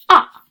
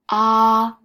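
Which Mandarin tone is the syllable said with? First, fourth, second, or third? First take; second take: fourth; first. First: It is said with a sharply falling fourth tone. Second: It is said with a high, level first tone. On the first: "ah is go down, like you're cutting something" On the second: "ah is the first tone, higher"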